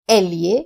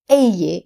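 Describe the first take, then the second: First: The double L sounds like 'ly'. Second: The double L sounds like 'y'. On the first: "if you're in Spain" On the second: "if you're in Latin America"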